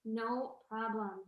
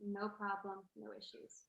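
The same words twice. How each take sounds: First: Slow, relaxed "No problem". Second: Soft "no problem". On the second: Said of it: "everything's good". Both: Shown as a demonstration.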